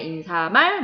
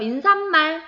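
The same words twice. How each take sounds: First: No extra n sound is added before mal. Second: An extra n sound is added before mal. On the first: The speaker calls it right. "니은 소리가 덧나지 않기 때문에" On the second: The speaker calls it wrong. "잘못 발음해서 ... 그 발음이 잘못된 거라고"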